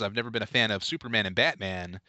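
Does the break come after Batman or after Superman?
after Batman. The phrase breaks after the word Batman. He dislikes both Superman and Batman. The speaker calls it wrong. "I put a bad inflection on it"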